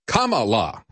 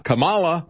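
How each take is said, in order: First: "Kamala" stressed on the first syllable, KAH-muh-lah; corrected pronunciation. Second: "Kamala" stressed on the middle syllable, kuh-MAH-luh; rejected pronunciation. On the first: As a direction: hit KA in "Kamala", full final "la". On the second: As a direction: punch MA in "Kamala", higher. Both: Shown as a demonstration. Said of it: "dictate which syllables you're gonna emphasize".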